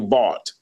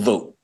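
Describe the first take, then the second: First: The vowel sounds like the one in 'caught'. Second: The vowel sounds like the one in 'boat'. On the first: The speaker calls it wrong. "to me, I would say Vaught" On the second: The speaker calls it right. "No, brother, it's Vote"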